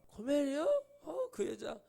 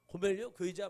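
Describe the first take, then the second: First: High, plaintive protest in mock dismay; annoyed whine. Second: Lightly acted defiant questioning; talking back. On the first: Hosea hearing of Gomer from God, imitated annoyed whine. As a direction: balk at the name, half crying. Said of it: "짜증내니까". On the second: Hosea talking back to God about Gomer, mildly defiant. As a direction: mildly challenge the name you were given. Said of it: "호세아가 대들죠".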